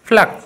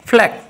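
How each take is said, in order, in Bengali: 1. প্রথম p তে জোরালো ফুঁ আছে। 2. প্রথম p তে জোরালো ফুঁ আছে।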